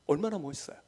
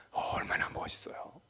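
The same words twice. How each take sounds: First: Said in the usual way. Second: 얼마나 멋있어요 in a soft whisper; whispering in awe. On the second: Acted. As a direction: hush it in wonder. Whispered, then repeated aloud.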